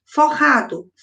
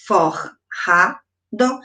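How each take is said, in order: First: Said in the usual way. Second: "forrado" very slowly broken as for... ra... do; long pause between each syllable of "forrado"; split into syllables. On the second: Shown as a demonstration. Teacher demonstrates syllable separation.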